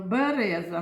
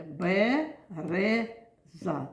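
First: Said in the usual way. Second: "Береза" very slowly in three separate syllables; "Береза" counted out beat by beat; split into syllables. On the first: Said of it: "Ну, давайте". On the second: Shown as a demonstration. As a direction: say "Береза" as бе, ре, за with pauses. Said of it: "Три склади".

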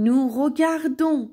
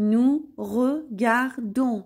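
First: Said in the usual way. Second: "nous regardons" very slowly, a gap after each syllable. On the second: Shown as a demonstration. Teacher showing learners "nous regardons", syllable by syllable. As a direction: break "nous regardons" into separate, drawn-out syllables.

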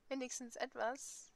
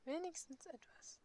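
First: Said in the usual way. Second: Wenigstens etwas repeated much softer and higher, in a changed voice; quiet repeat. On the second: Shown as a demonstration. Player echoes her own words, soft and higher. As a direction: murmur Wenigstens etwas back to yourself softly.

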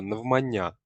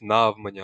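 First: Наголос на останньому складі в «навмання»; правильний наголос. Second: Wrong stress on the first syllable of «навмання»; неправильний наголос. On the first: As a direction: say «навмання» with the final «я» stressed. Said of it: "Правильна вимова —". («навмання» з наголосом на кінцевому «я») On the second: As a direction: hit and stretch «на» at the start of «навмання». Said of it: "Ніяких навмання або на". («навмання» з наголосом на перший склад «на») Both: Shown as a demonstration.

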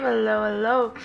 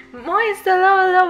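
First: Said in the usual way. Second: High, loud hello; excited greeting. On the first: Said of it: "greeting repeated plainly". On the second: Real, not acted. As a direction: welcome a friend with a squeal.

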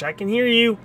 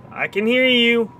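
First: High teasing I can hear you; high sing-song taunt. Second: High taunt, stress on hear; high sing-song taunt. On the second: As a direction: lean on hear, teasing. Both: Pretend. Taunting repeated line.

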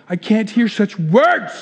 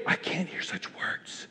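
First: Slow, scandalized protest, voiced aloud; mock horror. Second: Barely audible, scandalized whisper; horrified whisper. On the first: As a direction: draw it out in hammed-up horror. Same line repeated aloud, horrified. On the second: Acted. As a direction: whisper it as a shocked inner voice.

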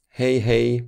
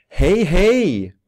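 First: Said in the usual way. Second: Loud, high cheerful greeting; glad hälsning. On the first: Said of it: "låter glad eller arg när du pratar". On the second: Shown as a demonstration. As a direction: greet gladly, pitch leaping up then falling. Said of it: "om du låter glad eller arg". (glad och ivrig, högt och ljust)

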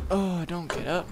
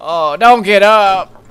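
First: Soft, dropped don't get up; soft plea. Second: High, louder, slow don't get up; mock loud plea. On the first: Player quietly begging the character to stay in bed. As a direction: murmur it softly. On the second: Player begging the character not to get up. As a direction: drag it out loud. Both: Shown as a demonstration.

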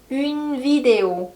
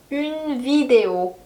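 The two takes are said the same way.

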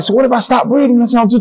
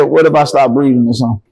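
First: Much higher, frightened question to the nurses; a scared patient begging the nurses, high and panicky; panicked question. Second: Said in the usual way. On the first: Retold or imitated. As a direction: ask it high and scared, voice climbing. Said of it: "I'm like". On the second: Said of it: "soon as I said".

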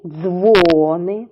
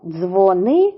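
First: "дзвони" with a long stressed дзво-; stress on first syllable. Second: "Дзвони" stressed on -ни; stress on second syllable. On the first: Teacher repeating the pair for children, long stressed first syllable. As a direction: stretch DZVO in "дзвони": DZVOOO-ny. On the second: Teacher repeating the pair for children, stress on second syllable. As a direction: say "Дзвони" as dzvo-NY. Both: Shown as a demonstration. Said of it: "іще раз повторюємо".

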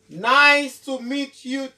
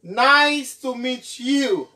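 The two takes are said the same way.

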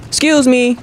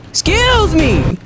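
First: High-pitched sassy request; sassy excuse me. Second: Very high, long drawn-out demand; exaggerated excuse me. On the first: Pretend. Gamer to a character in his way, sassy. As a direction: say it high and pointed. First call to get past character. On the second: Gamer to a character still in his way, exaggerated sass. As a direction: stretch it out way up high.

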